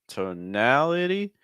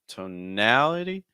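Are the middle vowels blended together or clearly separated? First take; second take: separated; separated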